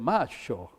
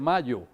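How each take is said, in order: First: The word is said in an Argentine accent. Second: The word is said in a neutral accent. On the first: "sino que dice macho" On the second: "no dice mayo"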